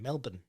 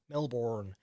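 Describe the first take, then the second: First: The last syllable is a short, reduced 'bun' sound. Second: The last syllable is a full 'born' sound. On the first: The speaker calls it right. "with the B U N, as the one word with no break after the L" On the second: The speaker calls it wrong. "Think Jason, which is what you're going with at the moment"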